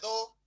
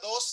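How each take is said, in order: First: The final s is dropped entirely. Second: The final s is clearly pronounced. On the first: This is a possible future Chilean form. "sino solamente do" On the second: This is the current form of the word. "ya no se diga dos"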